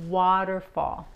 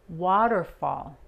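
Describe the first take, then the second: The two takes are said the same way.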